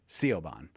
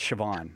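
First: The name is read out as it is spelled. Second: The name is said in its Irish pronunciation. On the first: The speaker calls it wrong. "because it looks like Siobhan" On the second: The speaker calls it right. "but it's Siobhan"

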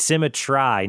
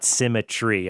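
First: The last syllable rhymes with 'eye', like 'try'. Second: The last syllable ends in 'ee', like 'tree'. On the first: It keeps the rhyme of the poem. The speaker calls it right. "And it's symmetry, ... Otherwise, you lose the whole rhyming of the poem" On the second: It breaks the rhyme of the poem. The speaker calls it wrong. "not symmetry"

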